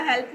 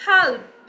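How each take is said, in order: First: Said in the usual way. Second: "help" drawn out with a twisted tongue, English-style. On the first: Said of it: "अब मैंने सीधा सीधा help नहीं बोला". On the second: Shown as a demonstration. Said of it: "with the twist of the tongue".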